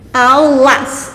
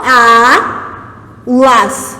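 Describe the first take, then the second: First: "Aulas" as "au... las", diphthong kept together; split by syllable. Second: "A... las" with a pause after the lone "A"; wrongly split word. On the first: Teacher shows the allowed line break, "Aulas" split after "au". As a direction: say "au" as one beat, then "las". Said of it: "É assim que eu separo". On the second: Teacher shows the forbidden line break, "A... las" split inside diphthong. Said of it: "eu não vou fazer isso aqui". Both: Shown as a demonstration.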